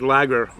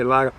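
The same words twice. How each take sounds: First: The word is said in a general American accent. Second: The word is said in a Boston accent. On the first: "the rest of the country says lager" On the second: "I got that Boston accent... I say lager"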